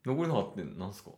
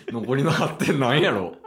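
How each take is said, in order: First: Said in the usual way. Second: Asking while laughing; giggling question. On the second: Real, not acted. Laughing at the score.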